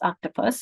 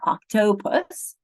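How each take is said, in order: First: The unstressed vowel is reduced to a schwa. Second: The unstressed vowel is said as a full vowel. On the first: The speaker calls it right. "that's a schwa because it's swallowed. The same thing with octopus. It's octopus" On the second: The speaker calls it wrong. "It's not octopus"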